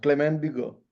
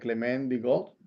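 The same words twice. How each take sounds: First: The final T of Bigot is silent. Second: The final T of Bigot is pronounced. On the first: The speaker calls it right. "Ahora está más correcto" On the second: The speaker calls it wrong.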